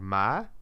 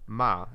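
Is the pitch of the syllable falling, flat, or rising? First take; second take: rising; falling. First: The pitch rises through the syllable. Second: The pitch falls through the syllable. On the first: "like the tone goes up" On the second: "like the goes down"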